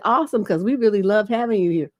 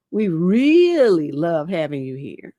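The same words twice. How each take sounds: First: Said in the usual way. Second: Slowed, drawn-out creepy repetition; slow mocking repeat. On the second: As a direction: linger on it to show how creepy it is. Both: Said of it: "And he was like".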